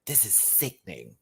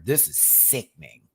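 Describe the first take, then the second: First: Much softer, hushed and lower; hushed awe. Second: Said in the usual way. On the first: Shown as a demonstration. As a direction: breathe it out in quiet awe.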